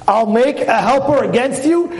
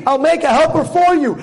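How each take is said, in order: First: Higher-pitched disbelief, questioning rise on "against you"; stress on AGAINST. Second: High, insistent punch on "for", falling after; stress on FOR. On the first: Rabbi puzzled by the verse, stressing "against" in disbelief. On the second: Rabbi giving the expected wording, "for" punched insistently. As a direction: hit "for" as the obvious correction. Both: Shown as a demonstration.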